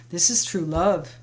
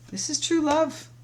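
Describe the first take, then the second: First: Said in the usual way. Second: "This is true love" jumps much higher, beaming on "true"; thrilled, high-pitched "true love"; delighted emphasis. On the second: Real, not acted. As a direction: lift it up with real joy, leaning on "true".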